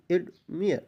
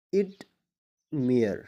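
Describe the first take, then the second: First: ایڈمائر said crisply, higher, at normal speed; normal-pace model word. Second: ایڈمائر drawn out very slowly with a long ai; slow stretched demo. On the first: (ایڈمائر عام رفتار سے) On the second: (ایڈمائر بہت آہستہ کھینچ کر) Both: Shown as a demonstration. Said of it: "تو یہاں پر آئی".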